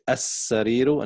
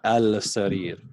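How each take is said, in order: First: The 'l' blends into a doubled 's' sound. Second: The word begins with a clear 'al' sound. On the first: The speaker calls it right. "So we say السرير" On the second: The speaker calls it wrong. "not al-sarir"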